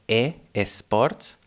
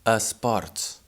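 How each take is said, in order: First: The first vowel is a full clear e. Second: The first vowel is a weak reduced schwa. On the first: The speaker calls it wrong. "we do not say sports, like e sports" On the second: The speaker calls it right. "but instead we say a"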